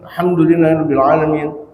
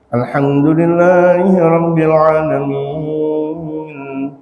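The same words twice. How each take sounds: First: It is recited in a plain, unmelodious voice. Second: It is recited in a pleasant, melodious voice. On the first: The speaker calls it wrong. "Jangan ketika dalam keadaan salat" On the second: The speaker calls it right. "suaranya agak enakan dikit"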